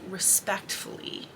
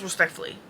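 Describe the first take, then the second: First: "respectfully" pronounced carefully, every syllable distinct; careful pronunciation. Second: "respectfully" run together, syllables swallowed; slurred pronunciation. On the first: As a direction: take your time over each sound of "respectfully". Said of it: "I need to say respectfully". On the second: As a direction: mumble through "respectfully" without separating the sounds. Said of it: "if I don't actually, like, sit here and think". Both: Shown as a demonstration.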